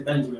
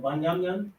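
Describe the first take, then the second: First: The name is said in its English form. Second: The name is said in its Hebrew form. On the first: "in English, you'll say English today" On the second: "in the ancient Hebrew"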